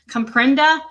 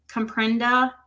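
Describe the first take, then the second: First: Loud, higher mocking repeat with a rising end; mocking echo. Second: Said in the usual way. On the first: Shown as a demonstration. Echoing Don's text back with loud mockery. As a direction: throw his word back at him in disbelief.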